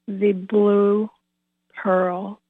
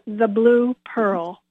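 First: It is said more slowly. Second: It is said at normal speed.

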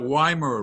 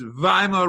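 First: The word begins with a W sound. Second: The word begins with a V sound. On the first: The speaker calls it wrong. "It's not" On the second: The speaker calls it right. "wasn't W pronounced like a V?"

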